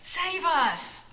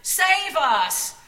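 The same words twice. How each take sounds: First: High, loud cheer; excited cry. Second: Loud, high joyful cry; crowd shouting. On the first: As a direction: shout with the crowd. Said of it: "Miriam cried". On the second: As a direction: call it out like a cheering crowd. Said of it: "surrounded by people shouting". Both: A narrator's reading.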